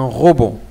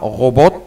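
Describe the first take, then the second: First: The final T is silent. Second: The final T is pronounced. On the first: The speaker calls it right. "on dit un robot" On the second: The speaker calls it wrong. "On ne dit pas robot"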